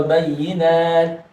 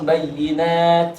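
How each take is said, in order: First: Bayyinat with tasydid on yy; bayyinat, press the yy hard; bayyinat with doubled y. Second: Bayyinat with a pause before nat; bayyinat split apart. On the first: (bayyinat dengan tasydid ditekan) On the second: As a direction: bayyinat pulled apart at the end. (bayyinat dipisah sebelum nat) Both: Shown as a demonstration. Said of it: "Apakah ditekan dulu".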